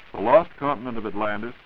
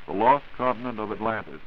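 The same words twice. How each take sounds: The two takes are said the same way.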